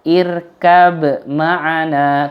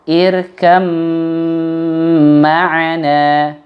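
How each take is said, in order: First: The b is pronounced clearly before the m. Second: The b disappears, merging into the following m. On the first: The speaker calls it wrong. "nggak boleh dibaca" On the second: The speaker calls it right. "ba-nya hilang, melebur langsung pada huruf mim"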